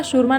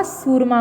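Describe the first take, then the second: First: शूरमा with a clear "sh" at the start; शूरमा spoken with sh, as the wrong form; wrong spelling said aloud. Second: सूरमा with a plain "s" at the start; सूरमा spoken with s, as the right form; correct pronunciation. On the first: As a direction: say शूरमा as shoorma, with sh. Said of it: "शूरमा नहीं होता". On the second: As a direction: say सूरमा as soorma, no sh. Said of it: "सूरमा होता है". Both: Shown as a demonstration.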